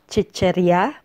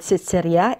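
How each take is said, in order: First: The word starts with a ch sound. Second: The word starts with an s sound. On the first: "usually pronounced as chicherya by native speakers" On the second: "the word sitserya"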